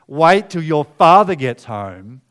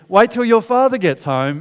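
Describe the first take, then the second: First: It is said in a serious, threatening tone. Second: It is said in a cheerful, promising tone.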